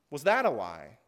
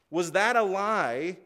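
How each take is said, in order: First: Dropped low, a questioning rise on lie; low rhetorical question. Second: Slow, drawn-out question, each word weighed; slow rhetorical question. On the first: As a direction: ask it low, as if to yourself. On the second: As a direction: stretch the question out for the congregation. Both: Shown as a demonstration.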